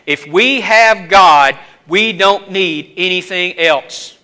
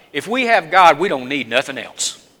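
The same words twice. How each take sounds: First: If we have God said slowly, each word weighed; slow it down and press every word; slow emphatic repeat. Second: Said in the usual way. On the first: Shown as a demonstration. Preacher repeating the point to the congregation, slow and weighty. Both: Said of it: "And I want to repeat that".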